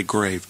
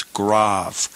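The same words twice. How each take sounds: First: "grave" with a long A, GRAYV; English pronunciation. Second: "grave" with an ah vowel, GRAHV; corrected pronunciation. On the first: Teacher catches the wrong reading, "grave" said GRAYV. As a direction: say "grave" to rhyme with save. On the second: Teacher gives students the right reading, "grave" said GRAHV. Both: Shown as a demonstration. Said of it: "you don't want to say grave".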